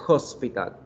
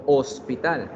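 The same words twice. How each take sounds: First: The word starts with a breathy h sound. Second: The word starts with a silent h. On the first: "en inglés we pronounce hospital" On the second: "En español la palabra hospital no suena la H"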